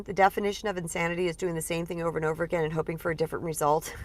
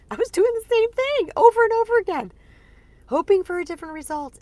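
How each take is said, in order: First: Said in the usual way. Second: Much higher, laughing through the words; laughing at herself. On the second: Real, not acted. Admitting to listeners her repeated mistake, laughing high.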